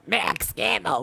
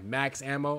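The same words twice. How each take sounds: First: It is said in a deep, dramatic announcer voice. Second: It is said in a plain, normal voice.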